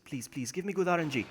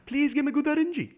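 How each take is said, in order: First: Said in the usual way. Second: High-pitched whiny plea; squeaky, imploring beg; begging. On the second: Real, not acted. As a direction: plead with the game. Pleading harder with the game.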